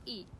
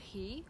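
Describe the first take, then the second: First: The word begins straight with the vowel. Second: The word begins with an audible h sound. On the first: "the H sound isn't usually pronounced" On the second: "sound H is pronounced"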